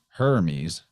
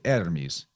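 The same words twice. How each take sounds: First: The word begins with an H sound. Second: The word begins without an H sound. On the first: "the Greeks don't call Hermes Hermes" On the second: "he would actually just leave it out"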